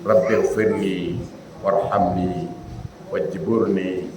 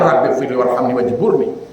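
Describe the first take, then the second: First: The long vowels are held out fully. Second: The long vowels are rushed and cut short. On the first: The prayer is said with proper respect. The speaker calls it right. "Kan di situ hukumnya panjang" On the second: The prayer is said without proper respect. The speaker calls it wrong.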